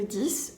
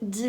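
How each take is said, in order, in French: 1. Le mot finit par un son s bien audible. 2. Le mot finit sans aucun son consonne final. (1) "on prononce le X comme un S à la fin, seulement si on n'a rien après" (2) "on a quelque chose après"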